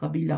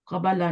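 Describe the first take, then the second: First: The vowel after the b is i. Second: The vowel after the b is a. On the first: The speaker calls it right. "होता है" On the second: The speaker calls it wrong. "नहीं होता"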